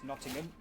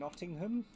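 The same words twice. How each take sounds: First: Nottingham is pronounced in the ordinary way. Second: Nottingham is pronounced in an odd, unusual way. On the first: The speaker calls it right. "It's Nottingham" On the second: The speaker calls it wrong. "Don't know why I said it like that"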